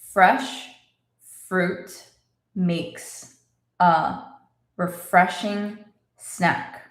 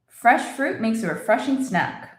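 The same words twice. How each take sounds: First: The sentence is spoken slowly. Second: The sentence is spoken at normal speed. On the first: "Let's say it slowly" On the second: "Normal speed"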